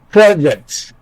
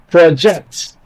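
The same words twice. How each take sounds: First: The stress is on the first syllable. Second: The stress is on the second syllable. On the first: It is used as a noun. "stress on the first syllable makes the word a noun" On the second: It is used as a verb. "Stress on the second syllable makes the word a verb"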